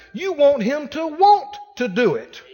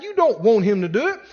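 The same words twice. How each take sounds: First: Second "want" punched higher; stress on second want. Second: "don't" stressed, denying it. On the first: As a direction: hit the "want" after "him to". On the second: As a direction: lean on "don't" to correct her. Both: Retold or imitated. Correcting her by contrasting stress.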